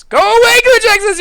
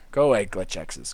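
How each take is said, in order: First: Much higher and louder; playful shout of Go away glitch X's; mock shout. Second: Said in the usual way. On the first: Loud second take.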